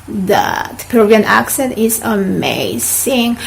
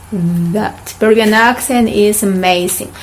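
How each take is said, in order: Both takes have the same delivery.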